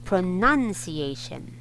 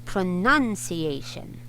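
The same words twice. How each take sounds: No difference in how they are said.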